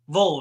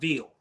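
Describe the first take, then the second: First: The vowel is short and dark, like 'vol'. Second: The vowel is long and bright, like 'veal'. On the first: The speaker calls it right. "Vol, not Veal" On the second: The speaker calls it wrong. "we don't say it that way"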